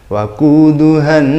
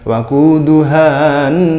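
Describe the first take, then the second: First: The final vowel is short and merges straight in. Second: The final vowel is held long before the next word. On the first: The speaker calls it right. "langsung waquduhan nasu" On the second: The speaker calls it wrong. "bukan waquduhan"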